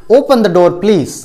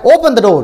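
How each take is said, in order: First: Slow, gentle asking tone; polite request. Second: Firm command. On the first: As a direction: ask nicely, drawing it out. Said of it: "तो वो हो जाएगा request". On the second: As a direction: give it as an order, not a request. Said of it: "जोर से बोल रहा है". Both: Shown as a demonstration.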